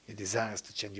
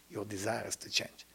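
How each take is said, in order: First: Said in the usual way. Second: Softer, whispered take of Your desire has to change. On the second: Shown as a demonstration. Teacher urging students to change, whispered. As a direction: breathe it, almost a whisper.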